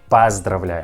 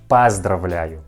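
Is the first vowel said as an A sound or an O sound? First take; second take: A sound; A sound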